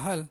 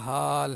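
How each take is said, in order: First: The vowel is short. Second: The vowel is long. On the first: The speaker calls it wrong. "Jangan kita sebut hal tu macam buat hal" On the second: The speaker calls it right. "Hal mesti panjang"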